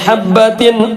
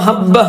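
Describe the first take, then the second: First: The word ends with a t and an n sound. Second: The word ends softly with a breathy h. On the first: The reciter continues without stopping. "ഇനി അവിടെ വഖ്ഫ് ചെയ്യുന്നില്ല എങ്കിൽ അവിടെ തൻവീനാണ്" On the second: The reciter stops at this word. "വഖ്ഫ് ചെയ്തപ്പോ ഹബ്ബ"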